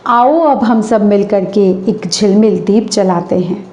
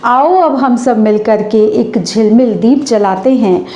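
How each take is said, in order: Both takes have the same delivery.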